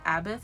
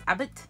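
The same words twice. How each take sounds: First: The name ends with a 'th' sound. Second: The name ends with a plain 't' sound. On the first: "I always pronounced it" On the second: "Like no no H on the end"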